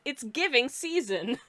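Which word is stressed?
season. The stress falls on the word season. Something gives the impression of a season. "I read it as"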